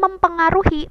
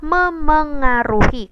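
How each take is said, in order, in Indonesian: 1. Bunyi p dipertahankan setelah mem. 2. Bunyi p dihilangkan setelah mem. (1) "itu bukan kemudian mempengaruhi" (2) "yang benar adalah memengaruhi"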